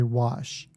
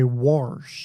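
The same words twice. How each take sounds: First: It is said without any R sound. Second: It is said with an added R sound. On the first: The speaker calls it right. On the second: The speaker calls it wrong.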